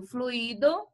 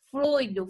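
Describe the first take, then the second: First: Fluido as three syllables, flu-Í-do; stress on I. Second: Fluido as two syllables, FLUI-do; stress on U. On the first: Teacher contrasts lookalike words, saying fluido as flu-Í-do. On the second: Teacher contrasts lookalike words, saying Fluido as FLUI-do. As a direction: stress the U of Fluido, gliding through the I. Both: Shown as a demonstration. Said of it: "uma única escrita".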